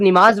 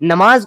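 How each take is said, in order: First: The first vowel is a short i. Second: The first vowel is a short a. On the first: This is how the other side says it. The speaker calls it wrong. "तुम लोग निमाज बोलते हो" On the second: This is the standard form of the word. The speaker calls it right. "नमाज को"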